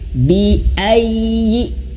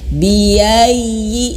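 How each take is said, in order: First: The voice breaks with a glottal stop before ayyi. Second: The syllables run together without any glottal break. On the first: The speaker calls it right. "Ini hamzah sebenarnya. Terputus suara ya" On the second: The speaker calls it wrong. "Jangan sampai bacanya biayyi"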